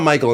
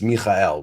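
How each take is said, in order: First: The name is said with English pronunciation. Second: The name is said with Hebrew pronunciation.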